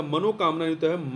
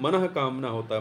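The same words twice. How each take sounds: First: Said in the usual way. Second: मनः कामना with a clear break and an audible visarga after मनः; correct spelling said. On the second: Shown as a demonstration. Teacher correcting a student's spelling, stressing मनः. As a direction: stress मनः, then pause before कामना.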